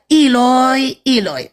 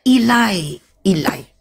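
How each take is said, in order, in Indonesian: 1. Vokal kedua bunyinya 'o'. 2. Vokal kedua bunyinya 'a'. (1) "dialeknya O. Eh jadinya iloi iloi" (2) "dialek yang dialek A membacanya ilai ilai"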